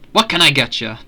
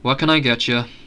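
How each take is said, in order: First: It is said without a bored tone. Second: It is said in a bored tone.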